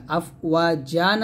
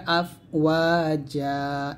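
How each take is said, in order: First: Said in the usual way. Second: আফওয়াজা with no final n and a long held "aa"; আফওয়াজা ending on a stretched open vowel; stopped form, lengthened. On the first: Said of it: "আফওয়াজান আছে". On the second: Shown as a demonstration. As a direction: draw out the last vowel of আফওয়াজা. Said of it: "এক লিফ টানতে হবে".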